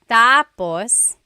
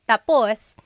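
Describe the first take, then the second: First: The stress is on the first syllable. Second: The stress is on the last syllable.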